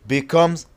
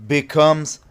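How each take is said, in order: Both takes have the same delivery.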